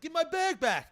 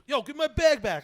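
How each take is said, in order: First: The voice drops, weaker and shakier. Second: The voice is strong and confident.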